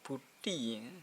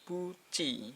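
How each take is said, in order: First: The last syllable is pronounced with a T sound. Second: The last syllable is pronounced with a CH sound. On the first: The speaker calls it wrong. "bukan buti" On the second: The speaker calls it right. "tapi buci"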